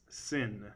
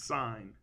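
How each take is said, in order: First: The vowel is short, rhyming with 'tin'. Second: The vowel is long, rhyming with 'line'. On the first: The speaker calls it wrong. "Please don't say it's sin" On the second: The speaker calls it right. "It's sine. We read it as sine even though we write sin"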